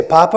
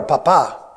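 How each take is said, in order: First: Papa stressed on the first syllable, PA-pa; papa with the accent up front. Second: Papa stressed on the last syllable, pa-PA; papa with the accent at the end. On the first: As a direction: say papa as PA-pa, the potato. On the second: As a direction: say papa as pa-PA, meaning dad. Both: Shown as a demonstration. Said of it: "but the accent's different".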